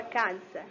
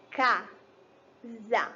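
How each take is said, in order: First: Said in the usual way. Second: "Casa" broken into "Ca" and "sa", long pause between; syllable by syllable. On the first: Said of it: "Quantas vezes eu abro". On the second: Shown as a demonstration. Teacher counting mouth openings for pupils, split into syllables. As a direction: sound out "Casa" in two separate, slow beats. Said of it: "Eu abro a boca duas vezes".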